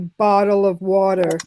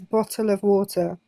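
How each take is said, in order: First: The middle consonants sound like soft D sounds. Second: The middle consonants are clear T sounds. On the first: "unlike most Americans who say "bottle of water" with D's" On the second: "I say it with T's in it"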